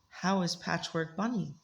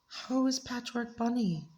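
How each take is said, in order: First: It is said in the reader's normal voice. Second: It is said in a small, childlike voice.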